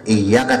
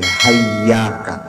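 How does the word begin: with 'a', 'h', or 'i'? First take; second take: i; h. First: The word begins with an 'i' vowel. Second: The word begins with an 'h' sound. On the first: "bukan bukan iyyaka" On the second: "hamzahnya diganti dengan ha"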